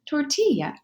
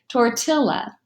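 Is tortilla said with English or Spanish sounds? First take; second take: Spanish; English. First: It is said with Spanish sounds. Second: It is read with English letter sounds. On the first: The speaker calls it right. "comes from the Spanish language, and so it's pronounced" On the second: The speaker calls it wrong. "read it using an English pronunciation"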